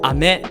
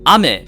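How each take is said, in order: First: It has the pitch pattern of the word candy. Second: It has the pitch pattern of the word rain. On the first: The word means candy. "ame would be candy" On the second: The word means rain. "ame would be rain"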